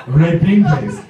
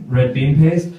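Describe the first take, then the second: First: Put-on Japanese-accented confirmation; Japanese coworker. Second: Said in the usual way. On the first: Japanese coworker confirms his translation.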